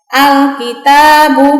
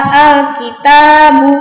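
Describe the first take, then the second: Both takes have the same delivery.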